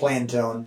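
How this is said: The name is pronounced the American way. This is how people here say it. "But over here, it's Plantone"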